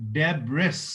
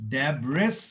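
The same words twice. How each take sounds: No difference in how they are said.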